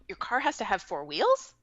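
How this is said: The voice rises at the end. It sounds like the speaker is asking. The speaker calls it wrong. "it sounds like a question"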